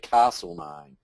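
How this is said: It is said the New South Wales way. "in New South Wales we say"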